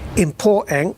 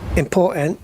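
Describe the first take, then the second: No difference in how they are said.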